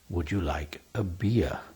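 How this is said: The last word sounds like 'beer'. "in my English"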